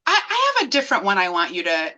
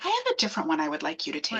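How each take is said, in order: First: Said in the usual way. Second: Low, soft, quick retold doctor; no panic mode. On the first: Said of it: "he was like". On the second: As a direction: deliver it softly and low, doctor playing it down. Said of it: "Not panic mode or anything".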